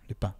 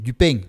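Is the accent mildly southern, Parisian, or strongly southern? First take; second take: Parisian; strongly southern. First: It is said in a standard Parisian accent. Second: It is said in a very strong Marseille accent. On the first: "si je le dis avec un accent plus standard ou parisien" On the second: "je peux le dire avec un accent encore plus prononcé"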